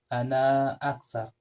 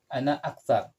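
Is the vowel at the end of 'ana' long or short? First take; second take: long; short. First: The last vowel of ana is long. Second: The last vowel of ana is short. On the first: The speaker calls it wrong. "Hindi pwedeng" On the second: The speaker calls it right. "yung kaunting long vowel na ana, magiging short na lang"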